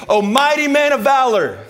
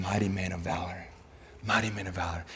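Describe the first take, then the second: First: High, loud heroic hail with a long held note; God's proclamation. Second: Soft, low, hushed affirmation; God's quiet voice. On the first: God hailing the hiding Gideon, proclaiming. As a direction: call it out grandly like a herald. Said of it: "You know what God tells". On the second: God's voice reaching Gideon, quiet affirmation. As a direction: say it gently low, letting it sink in. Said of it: "he heard the voice of God saying". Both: Acted.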